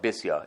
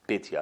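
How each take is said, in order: First: The middle consonant is an s sound. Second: The middle consonant is a t sound.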